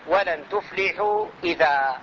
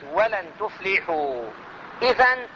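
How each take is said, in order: First: The last word ends with a long a vowel. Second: The last word ends with an n sound. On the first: The reader stops on this word. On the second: The reading continues without stopping.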